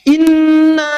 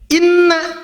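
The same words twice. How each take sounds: First: The final vowel is held long. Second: The final vowel is cut short. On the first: Indeed we; it contains the word for we. The speaker calls it right. "panjang bukan pendek" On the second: It is only a particle of emphasis. The speaker calls it wrong.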